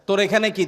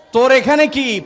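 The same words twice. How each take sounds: First: Said in the usual way. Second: "তোর এখানে কি?" yelled loud and high; scolding shout. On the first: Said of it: "এক ধমক দেয়". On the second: Retold or imitated. Grandmother chasing the fast-breaker off the table, shouting "তোর এখানে কি?". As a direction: bark "তোর এখানে কি?" at the child. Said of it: "দাদি এক ধমক দেয়".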